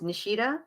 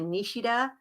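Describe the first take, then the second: First: The name is said with an American pronunciation. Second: The name is said with a Japanese pronunciation. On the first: This is the everyday form the speaker uses. "that's the Americanized version" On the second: This is the technically correct original form. "if you're going to be technical about it"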